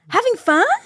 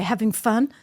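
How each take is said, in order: First: It is said in a friendly, sincere tone. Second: It is said in a sarcastic, mocking tone. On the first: A genuine question about enjoyment. "They say it like this" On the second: The listener is clearly not enjoying himself. "They wouldn't say it like that"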